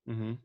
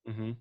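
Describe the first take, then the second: Both takes have the same delivery.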